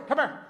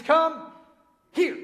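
First: Southern American run-together "Come here"; Southern drawl. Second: "Come" and "here" as two separate, careful words; neat separated words. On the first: Preacher showing the congregation his Southernized English, Southern accent. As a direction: say "Come here" as one quick Southern word. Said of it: "I could say it neater". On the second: Preacher translating his Southern phrase, careful separated "Come ... here". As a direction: spell out "Come", pause, then "here". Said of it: "That means, "Come here." I could say it neater". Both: Shown as a demonstration.

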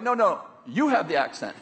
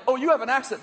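First: Mock correction, leaning on "you"; acted retort. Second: Higher-pitched acted surprise; mock surprised remark. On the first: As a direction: stress on "you", falling away after it. Acting out the other person's retort. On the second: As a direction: point out someone else's accent, lightly surprised. Acting out two people disputing accents.

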